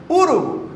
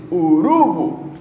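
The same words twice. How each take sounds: First: "urubu" said as Ú-ru-bu, high start; stress on first syllable. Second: "urubu" said slowly as u-RU-bu; weight the RU in "urubu", letting BU drop; stress on middle syllable. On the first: Teacher testing a third-last stress, "urubu" stressed on first U. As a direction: hit the first U of "urubu", let the rest fall. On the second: Teacher testing a wrong stress, "urubu" stressed on RU. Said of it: "aí eu pesei a tônica aqui". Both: Shown as a demonstration.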